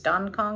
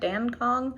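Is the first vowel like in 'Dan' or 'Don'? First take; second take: Don; Dan. First: The first vowel sounds like 'ah' in 'Don'. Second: The first vowel sounds like 'a' in 'Dan'. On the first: The speaker calls it right. "I think it's Don Kong" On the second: The speaker calls it wrong. "and not Dan Kong. I feel like every American says Dan"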